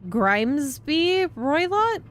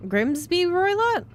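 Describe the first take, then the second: First: "Grimsby Roylott" slow and questioning, rising at the end; unsure name. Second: "Grimsby Roylott" higher and surer, falling at the end; second try at the name. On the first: Streamer puzzling over the name, slow rising try. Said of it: "His name is Mister Grim". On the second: Streamer trying the name again, higher and falling. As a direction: settle on "Grimsby Roylott" with a firm fall. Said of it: "It's probably Grimsby". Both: Shown as a demonstration.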